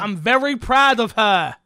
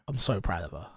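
First: It is said loudly. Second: It is said quietly.

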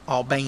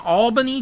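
First: It is said the local Georgia way. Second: It is said in a general pronunciation.

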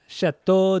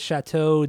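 First: It is said with an exaggerated put-on foreign accent. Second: It is said plainly without a foreign accent. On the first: "That was more Spanish" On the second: "I just didn't have an accent, an over the top French accent"

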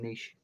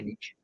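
First: It is said the Canadian way. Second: It is said the American way.

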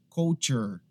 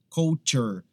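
Both takes have the same delivery.

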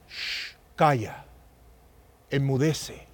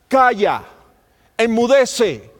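First: It is said softly and gently. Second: It is said loudly and forcefully.

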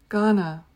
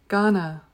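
Both takes have the same delivery.

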